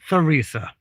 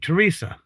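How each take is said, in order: First: The name starts with a TH sound. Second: The name starts with a plain T sound. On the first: The speaker calls it wrong. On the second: The speaker calls it right. "in French, you don't have the sound"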